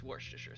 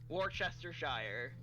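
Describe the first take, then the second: First: The word is said with few, shortened syllables. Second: The word is said with many full syllables. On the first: The speaker calls it right. "it's Worcestershire sauce" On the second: The speaker calls it wrong. "it is not Worcestershire"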